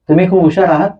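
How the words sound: It is said as a question, rising. The listener is asked whether they are clever. "दुसऱ्या वाक्याचा थोडा एक बोलण्याचा टोन बदलला"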